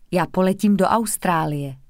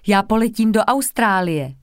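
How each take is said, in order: First: Said in the usual way. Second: A louder, proud reveal; proud announcement. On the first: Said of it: "rovnou dodala". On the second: A narrator's reading. Girl proudly tells classmates about her trip, announcing. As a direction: announce it to the whole group. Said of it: "řekla Anička a rovnou dodala".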